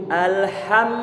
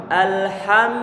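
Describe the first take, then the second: No difference in how they are said.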